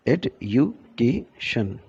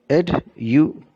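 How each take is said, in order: First: Education drawn out slowly, ed-u-ca-tion evenly; slow syllable-timed education. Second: Education said at normal pace, every syllable clear; pronouncing education. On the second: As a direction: say Education crisply. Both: Shown as a demonstration. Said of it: "This is how we pronounce education".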